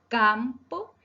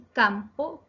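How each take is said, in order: First: "campo" with a long, stressed "cam"; teacher exaggerating the stressed "cam" of "campo"; stress on penultimate syllable. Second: Said in the usual way. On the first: Shown as a demonstration. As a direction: stretch the first syllable of "campo". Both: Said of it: "se acentúan en la penúltima sílaba".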